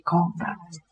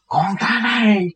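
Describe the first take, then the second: First: The repeat sinks softer and trails off; softer echo. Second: High, slow, drawn-out joyful call; excited calling out. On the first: Old man repeats his greeting, fading softly. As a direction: let the second call fade, moved. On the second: Old man greets his spiritual son, high joyful call. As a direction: call out to a long-lost son. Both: Retold or imitated. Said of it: "ổng ở trên lầu xuống, chạy xuống".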